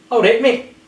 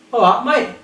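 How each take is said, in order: First: "All right, mate" with "mate" like "mek"; higher, louder greeting, "mate" with a short ay; Scottish mate. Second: "All right, mate" with "mate" like "mite"; higher greeting, "mate" with an eye vowel; English mate. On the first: Teacher demonstrating a Scottish greeting, "mate" said like "mek". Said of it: "In Scotland". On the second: Teacher demonstrating an English greeting, "mate" said like "mite". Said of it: "In England". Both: Shown as a demonstration.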